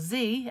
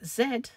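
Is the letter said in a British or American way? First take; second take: American; British. First: The letter is said the American way, zee. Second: The letter is said the British way, zed.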